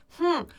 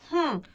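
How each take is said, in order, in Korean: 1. 코로 공기를 세게 내보내요. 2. 코로 공기를 세게 내보내요.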